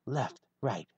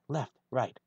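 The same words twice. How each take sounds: The two takes are said the same way.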